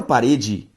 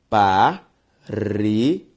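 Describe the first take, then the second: First: Said in the usual way. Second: "parede" split slowly into pa, re, de; syllable by syllable. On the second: Shown as a demonstration. Teacher separating a word for students, "parede" syllable by syllable. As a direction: sound out "parede" with a clear pause after each syllable. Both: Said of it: "Se eu separo parede".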